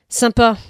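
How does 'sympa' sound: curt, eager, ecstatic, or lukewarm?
curt. It is said short and final, closing down. The speaker closes off further engagement. "avec son point final. La porte se referme"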